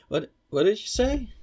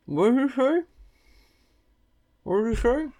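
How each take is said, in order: First: Loud, clearly spoken question; clear shout. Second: Shouting through a mouthful; mouth full. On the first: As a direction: call it out clearly, mouth empty. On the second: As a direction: yell with food in your mouth. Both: Real, not acted. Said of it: "shouldn't speak with my mouth full".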